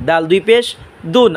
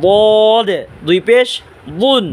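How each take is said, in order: First: "দাল" and "দুন" with a light d at the front teeth; "দাল দুই পেশ দুন" with a plain dental d; tongue-tip D. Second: "বদ" stretched slowly with a heavy emphatic d; full, rounded Arabic dad on "বদ" and "বুন"; thick Dad. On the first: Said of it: "দাল জিব্বার আগা". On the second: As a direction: press tongue edge to upper molars for "বদ". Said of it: "মোটা আওয়াজে উচ্চারণ করবেন". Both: Shown as a demonstration.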